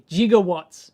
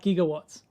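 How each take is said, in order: First: The word begins with a soft J sound. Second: The word begins with a hard G sound. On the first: The speaker calls it right. "with a J" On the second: The speaker calls it wrong.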